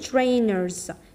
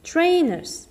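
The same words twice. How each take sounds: First: The r after the vowel is pronounced. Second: The r after the vowel is silent. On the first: The speaker calls it wrong. "ما نقولوش trainers" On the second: The speaker calls it right. "شوفوا الار هنا ما نش ننطقوها"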